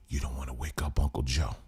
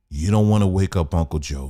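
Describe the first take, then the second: First: Lower, much softer warning; low hushed caution; mock hushed warning. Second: Said in the usual way. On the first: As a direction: hush them so the old man sleeps. Hushing voice continues. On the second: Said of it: "repeated normally".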